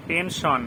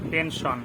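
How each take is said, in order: Both takes have the same delivery.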